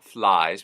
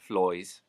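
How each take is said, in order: First: The vowel sounds like 'eye'. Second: The vowel sounds like 'oy'.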